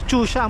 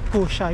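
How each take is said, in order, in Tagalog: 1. Nagsisimula ang salita sa tunog na ch. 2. Nagsisimula ang salita sa tunog na k. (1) "Chusha ang pronunciation niya" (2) "Kusha yung pag binasa ng Pilipino or English"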